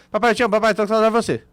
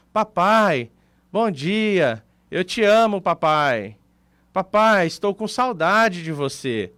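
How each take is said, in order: First: Rattled off fast, words crammed together; sped-up audio. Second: Tender, unhurried message to dad, words drawn out; normal-speed daughter. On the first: Daughter's message to dad played at two-point-zero, rushed and feelingless. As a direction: imitate a voice message on double speed. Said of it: "Aí você assiste acelerado". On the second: Daughter's voice message to her dad played at normal speed, slow and tender. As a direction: say it lovingly, leaving space between phrases. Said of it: "Se você escuta ela normal". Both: Retold or imitated.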